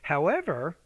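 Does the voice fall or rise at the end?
rise. The voice rises at the end. The speaker calls it right. "Your tone needs to go up at that point"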